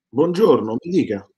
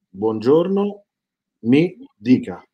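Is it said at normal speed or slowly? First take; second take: normal speed; slowly. First: It is said at normal speed. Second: It is said slowly, word by word.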